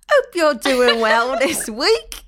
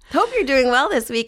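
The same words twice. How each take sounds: First: It is said in a put-on Cockney accent. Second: It is said in the speaker's normal accent. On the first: "I'm going to do my Cockney accent" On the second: "No, I won't do it"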